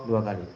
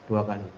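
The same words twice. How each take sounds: The two takes are said the same way.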